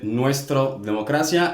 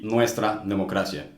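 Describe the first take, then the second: First: "nuestra" uitgesproken als "nuestro", eindigend op een o; quoting his mistake. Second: "nuestra" met een duidelijke a op het eind; correct form. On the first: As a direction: zeg het met de foute o-uitgang. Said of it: "He did the same mistake again". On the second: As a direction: geef de juiste vrouwelijke a-uitgang. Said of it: "it should be". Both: Shown as a demonstration.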